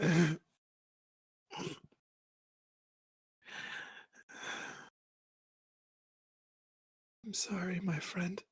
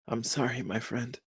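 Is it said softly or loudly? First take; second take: softly; loudly. First: It is said at a softer volume. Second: It is said at a louder volume.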